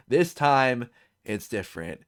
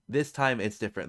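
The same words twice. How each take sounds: First: "This time it's different" said slowly, each word weighted; slow weighty quote. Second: Said in the usual way. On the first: Shown as a demonstration. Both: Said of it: "The four most expensive words".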